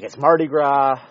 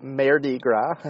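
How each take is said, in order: First: Said in the usual way. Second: Mardi Gras said as MAIR-dee grah with a rising tune; a silly mispronounced Mardi Gras, ending up; joke pronunciation. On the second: Shown as a demonstration. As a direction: Mardi Gras with a flat 'air' vowel like mare. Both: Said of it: "or as I like to call it".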